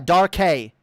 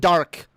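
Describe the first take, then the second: First: The name ends in a hay syllable. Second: The name is one syllable ending in k. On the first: This is the proper pronunciation. "It's not hard" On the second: Many people shorten it this way. "pronounce it Dark. Like a lot of people do"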